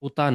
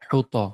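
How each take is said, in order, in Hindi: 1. शब्द सीधे एक स्वर की ध्वनि से शुरू होता है। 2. शब्द एक स्पष्ट H ध्वनि से शुरू होता है। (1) "उता नहीं" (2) "हा पढ़िए"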